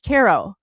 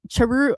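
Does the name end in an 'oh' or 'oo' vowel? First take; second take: oh; oo. First: The name ends with an 'oh' vowel. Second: The name ends with an 'oo' vowel. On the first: The speaker calls it right. "it's Charo" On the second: The speaker calls it wrong. "I've been calling you Charu"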